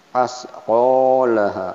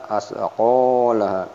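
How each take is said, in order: No difference in how they are said.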